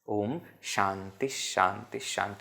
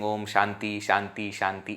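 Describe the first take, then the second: First: Each Shanti ends with an added breathy h sound. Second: Each Shanti ends plainly, with no final h sound. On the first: The speaker calls it right. "Visarga is there... at the end, therefore pronounced as h" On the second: The speaker calls it wrong. "people have a habit of saying"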